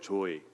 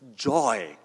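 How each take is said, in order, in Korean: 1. 한국식 억양으로 밋밋하게 말해요. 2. 미국식으로 웃으면서 밝게 말해요. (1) "한국은 이게 돼요" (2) "전부 다 입꼬리가 이렇게 올라가요"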